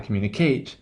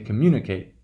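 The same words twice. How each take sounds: First: The last syllable has a reduced, weak vowel. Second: The last syllable has a full, long vowel. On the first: The speaker calls it wrong. "you kind of want to say communicate, but you don't" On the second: The speaker calls it right. "Because we hear that long value"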